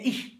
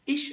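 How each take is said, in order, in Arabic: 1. تنتهي الكلمة بصوت ch الناعم. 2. تنتهي الكلمة بصوت sh.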